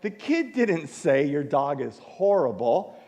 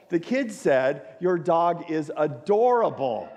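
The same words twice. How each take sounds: First: "horrible" stressed as the misheard word. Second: "adorable" slow and stressed through a laugh. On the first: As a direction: lean on "horrible", the wrong word. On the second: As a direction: land on "adorable" with a rueful laugh. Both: Shown as a demonstration.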